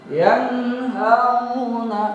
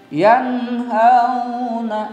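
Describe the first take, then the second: Both takes have the same delivery.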